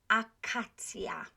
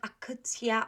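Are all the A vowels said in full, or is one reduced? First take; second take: full; reduced. First: Every A vowel is said clearly and fully. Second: One of the A vowels is weakened or cut short. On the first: The speaker calls it right. "I'm pronouncing all of those A's" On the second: The speaker calls it wrong. "It's not akacja or don't cut anything"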